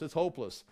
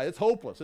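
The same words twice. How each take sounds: First: Said in the usual way. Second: "hopeless" louder and higher, falling; hopeless cry. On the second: Retold or imitated. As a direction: wail "it's hopeless" as the despairing wife. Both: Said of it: "He says".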